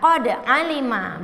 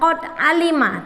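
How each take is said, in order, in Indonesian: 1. Bunyi d dilepas dengan pantulan. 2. Bunyi d ditahan tanpa dilepas. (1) "tetapi dipantulkan qad alima" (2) "bukan qad alima"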